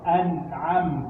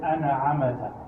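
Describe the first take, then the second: First: The m goes straight into the t. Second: An extra vowel is added after the m. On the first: The speaker calls it right. "Don't bounce it" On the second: The speaker calls it wrong. "people will bounce the noon and bounce the mean"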